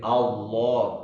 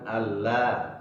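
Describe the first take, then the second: First: The L is pronounced heavy and thick. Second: The L is pronounced light and thin. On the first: The speaker calls it right. "dibaca tebal. Seperti Allah" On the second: The speaker calls it wrong. "bukan Allah"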